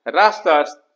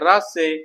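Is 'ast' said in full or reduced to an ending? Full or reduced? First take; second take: full; reduced. First: The word 'ast' is said in full, separately. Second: 'Ast' shrinks to a short 'e' ending. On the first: This is the written form. "अगला है" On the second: This is everyday spoken usage. "कहेंगे"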